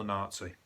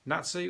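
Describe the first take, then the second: First: Nazi as NAHT-see; long 'ah' in Nazi; common pronunciation. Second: Nazi as NAT-see; short 'a' in Nazi, as in cat; Birmingham pronunciation. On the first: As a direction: say Nazi with a long open first vowel. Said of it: "I've said Nazi because". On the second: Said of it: "Nazi, I say from Birmingham". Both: Shown as a demonstration.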